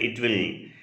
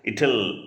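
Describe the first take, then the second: First: The two words are said separately in full. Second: The two words are contracted into one form. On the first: The speaker calls it wrong. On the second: The speaker calls it right.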